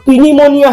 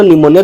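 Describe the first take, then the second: First: "pneumonia" said slowly and high as "pee-nimonia"; silent P sounded. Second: Said in the usual way. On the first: Shown as a demonstration. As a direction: read "pneumonia" as spelt, sounding the first P. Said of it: "इसे पी silent है". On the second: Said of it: "हम बोले".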